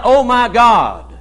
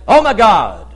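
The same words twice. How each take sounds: First: Slow, drawn-out "Oh my God", a real plea; earnest cry to God. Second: Tossed-off Oh my God, a careless habit; flippant exclamation. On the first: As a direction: cry "Oh my God" slowly, calling on God in need. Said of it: "when you cry out". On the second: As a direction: say "Oh my God" lightly, as an empty exclamation. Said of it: "they'll say". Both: Shown as a demonstration.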